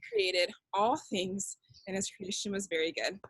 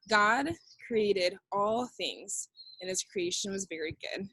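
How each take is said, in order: First: Said in the usual way. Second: Slow. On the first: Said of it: "Do that with me". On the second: Shown as a demonstration. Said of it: "And our answer".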